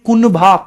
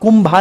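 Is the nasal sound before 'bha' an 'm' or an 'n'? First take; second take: n; m. First: The nasal before 'bha' is an 'n' sound. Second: The nasal before 'bha' is an 'm' sound. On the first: The speaker calls it right. "कुनभा है ये" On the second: The speaker calls it wrong. "कुंभा नहीं है"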